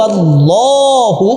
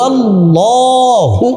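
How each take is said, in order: No difference in how they are said.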